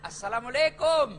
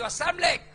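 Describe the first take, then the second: First: "Assalamualaikum" echoed as a short asalamuleko; preacher mimics the mashed greeting; mocking repeat. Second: "assalamualaikum" mashed into a quick asamlek; student calls out a lazy, clipped assalamualaikum; slurred salam. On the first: Shown as a demonstration. Mocking the clipped assalamualaikum. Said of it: "kayak S M S saja". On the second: Retold or imitated. Slurred quick assalamualaikum. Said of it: "Apalagi itu assalamualaikum?".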